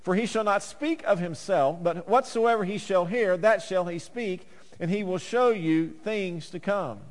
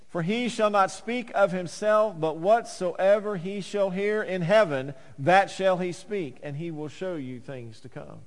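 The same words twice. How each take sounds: First: Said in the usual way. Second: Slow, weighty, each phrase stressed; slow emphatic reading. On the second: Shown as a demonstration. Preacher rereads the verse to the church, slow and emphatic. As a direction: lean on every word slowly for emphasis. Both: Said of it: "Again, for emphasis".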